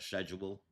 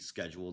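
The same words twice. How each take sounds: First: The word begins with an 'sh' sound. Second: The word begins with an 'sk' sound. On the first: The speaker calls it wrong. "not schedule" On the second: The speaker calls it right. "schedule should be schedule"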